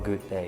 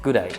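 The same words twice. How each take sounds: First: Both words are said fully and separately. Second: The words are clipped into one short word. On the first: "as in American English, we say hello or good day" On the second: "in Australian we say a little bit shorter version"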